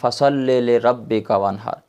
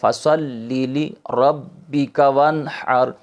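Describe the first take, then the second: First: The middle syllables use a short 'e' vowel. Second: The middle syllables use a long 'ee' vowel. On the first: The speaker calls it wrong. "गलत लोग पढ़ते हैं" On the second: The speaker calls it right. "सही तरीका है"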